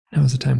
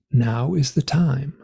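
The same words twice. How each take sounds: First: Said in the usual way. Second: Slow, measured pronouncement; lightly voiced solemn beings; otherworldly beings. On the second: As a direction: deliver it slowly, like an oracle. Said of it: "And they say".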